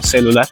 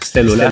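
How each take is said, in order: First: It is pronounced the Uruguayan way. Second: It is pronounced the non-Uruguayan way. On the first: This is how people say it in Uruguay. The speaker calls it right. "sino celular" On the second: This is not how people say it in Uruguay. The speaker calls it wrong. "no se dice celular"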